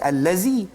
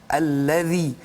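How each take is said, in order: First: The middle consonant is a plain 'z' sound. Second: The middle consonant is a voiced 'th' sound. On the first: The speaker calls it wrong. "mungkin bunyikan huruf zai, ... sudah jatuh pada salah" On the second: The speaker calls it right. "Zal, az-zalu, ha?"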